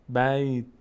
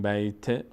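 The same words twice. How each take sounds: First: The word ends on a bare, vowelless t. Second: The final t is followed by an i vowel. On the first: The speaker calls it right. "زیاد حرکت نباید بدیم" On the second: The speaker calls it wrong. "کسره بهش دادیم دیگه ساکن نشد"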